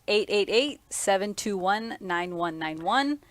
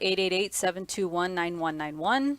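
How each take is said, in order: First: The number is said more slowly. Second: The number is said at normal speed.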